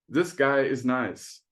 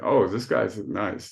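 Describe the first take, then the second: First: It is said sincerely, meaning it. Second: It is said ironically, meaning the opposite.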